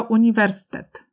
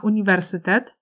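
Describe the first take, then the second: First: "uniwersytet" reduced to "uniwerstet", y dropped; shortened pronunciation. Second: "uniwersytet" with all five syllables, y sounded; full pronunciation. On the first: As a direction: say "uniwersytet" without its y, u-ni-WER-stet. („uniwersytet” skrócone do „uniwerstet”, bez y) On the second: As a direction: say "uniwersytet" in full, u-ni-wer-sy-tet. („uniwersytet” w pełnej wymowie, z wyraźnym y) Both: Shown as a demonstration. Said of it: "do ich eliminacji w wymowie".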